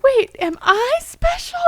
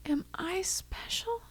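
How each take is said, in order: First: Put-on much higher, louder childlike wonder; imitating a five-year-old, wide-eyed. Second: Whispered, higher, near tears; imitating a frail grandma, teary whisper; crackly, sad voice. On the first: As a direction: ask it like a surprised little kid. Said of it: "kind of like a five-year-old". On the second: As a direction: ask it in a fragile whisper about to cry. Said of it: "crackly, sad, almost gonna cry herself voice".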